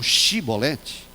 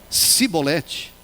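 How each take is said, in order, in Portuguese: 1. A palavra começa com um som de sh. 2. A palavra começa com um som de s simples. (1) "Eles não conseguiam falar shi" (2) "Eles pronunciavam si"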